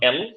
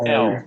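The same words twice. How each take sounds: First: The L is hard with the tongue pressed. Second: The L is soft with a curled tongue. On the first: The speaker calls it wrong. "Not এল" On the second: The speaker calls it right. "নরম হবে জিহ্বাটা, একটু বাঁকানো হবে"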